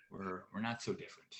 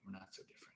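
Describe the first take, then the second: First: Said in the usual way. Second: Whispered under the breath. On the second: Acted. Comic whispers the punchline again to the audience. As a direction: repeat it as a near-silent whisper. Whispered repeat of the tag line.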